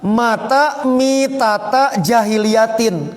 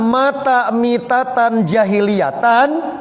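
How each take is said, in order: First: The final word ends with an 'in' sound. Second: The final word ends with an 'an' sound. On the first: He died the death of the people of jahiliyah. "berbaris majrur jr" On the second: Jahiliyah describes the death as an adjective. "yang pertama ... jahiliyahna jadi sifat"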